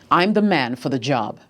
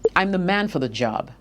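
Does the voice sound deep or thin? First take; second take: deep; thin. First: The voice is deep, full and projected. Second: The voice is thin, tight and strained. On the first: The speaker calls it right. "From your chest, deep breath, project your voice" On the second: The speaker calls it wrong. "say from your throat"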